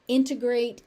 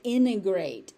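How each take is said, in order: First: The middle T sound is pronounced. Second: The middle T sound is dropped. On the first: "Integrate is a more correct pronunciation" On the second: "you may also hear integrate, and the T disappears"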